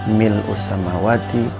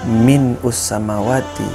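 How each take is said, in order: First: The first word is said without an n sound. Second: The first word is said with an n sound. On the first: The speaker calls it right. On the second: The speaker calls it wrong.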